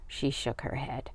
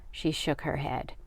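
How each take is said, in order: Both takes have the same delivery.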